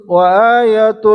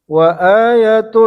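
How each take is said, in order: The two takes are said the same way.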